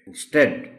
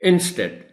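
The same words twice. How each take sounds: First: The stress is on the second syllable. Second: The stress is on the first syllable. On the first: The speaker calls it right. "Instead टी पर stress है" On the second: The speaker calls it wrong. "अगर हम इसको गलत बोलने की कोशिश करें तो हम बोलेंगे"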